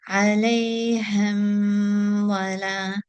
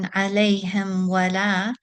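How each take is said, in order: First: The m is held long with extra nasal sound. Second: The m passes quickly into the w. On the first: The speaker calls it wrong. "they've held the meme for too long and they've brought the sound into the nasal cavity" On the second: The speaker calls it right. "simply going from the meme into the wow"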